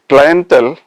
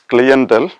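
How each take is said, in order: First: It is said in a non-British pronunciation. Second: It is said in a British pronunciation.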